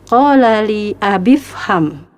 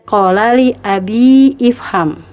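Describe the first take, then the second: First: The words run together without the extra vowel. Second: An extra vowel is pronounced before 'fham'. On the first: The speaker calls it right. "langsung disambung ke huruf berikutnya" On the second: The speaker calls it wrong. "tidak dibaca demikian"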